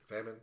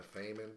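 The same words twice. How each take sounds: First: Famine said as "FAM-in" with a short a; "Famine" corrected to "fam-in"; corrected name. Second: Famine said as "FAY-min" with a long a; "Famine" mispronounced as "fay-min"; first try at the name. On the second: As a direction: read "Famine" with the a as in "fame". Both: Real, not acted.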